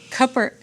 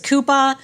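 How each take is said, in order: First: It is said with a plain American final r. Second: It is said in a Boston accent, dropping the r.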